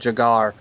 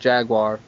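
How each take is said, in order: First: The word has the foreign, overseas-style pronunciation. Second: The word has the local, English-style pronunciation. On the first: "Over there they pronounce it" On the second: "That way we would pronounce it"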